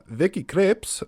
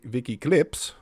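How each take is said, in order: First: The name is said in a put-on accent. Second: The name is said in a normal voice.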